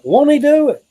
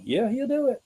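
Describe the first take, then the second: First: High, loud call-out. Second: High answering call; church response. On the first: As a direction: shout it out like a church call. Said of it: "they're like". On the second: A churchgoer answers the call, high and sure. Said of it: "Somebody like". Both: Retold or imitated.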